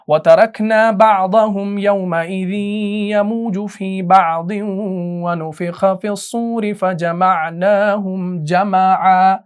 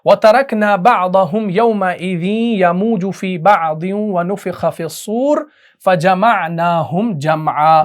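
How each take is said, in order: First: Very slow chant, जमआ said with a fatha on मीम as "jamaa"; wrong recitation. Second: Slow chanted recitation, जमआ ending with sukun on मीम; correct recitation. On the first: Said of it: "ये आपकी लहने जली के अंदर आएगी". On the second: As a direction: recite slowly, keeping the मीम in जमआ silent-voweled. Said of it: "तो आपने सही पढ़ा". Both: Shown as a demonstration.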